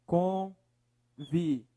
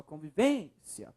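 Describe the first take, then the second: First: Convivência broken into con, vi, vên, cia; syllable by syllable. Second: Convivência with VÊN held long, low and soft; stressed VÊN syllable. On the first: Teacher dividing the next word for analysis, syllable by syllable. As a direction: separate each syllable of Convivência slowly and evenly. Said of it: "Separe a palavra". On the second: Teacher showing the strongest syllable, VÊN drawn out in convivência. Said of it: "Qual a sílaba mais forte?". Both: Shown as a demonstration.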